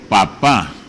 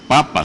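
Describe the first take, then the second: First: The stress is on the last syllable. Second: The stress is on the first syllable. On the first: "con acento es una cosa" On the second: "sin acento es otra"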